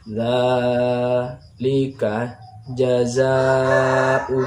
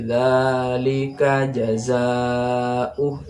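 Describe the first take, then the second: First: The words are read in broken, separated pieces. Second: The words are read in one smooth, connected flow. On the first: "kayak terputus-putus seperti ini" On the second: "baca sambung langsung"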